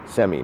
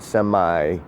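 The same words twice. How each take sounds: First: The word ends with an 'ee' sound. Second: The word ends with a long 'eye' sound. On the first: The speaker calls it right. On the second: The speaker calls it wrong. "not semi. Okay, there's no E at the end making that I a long I"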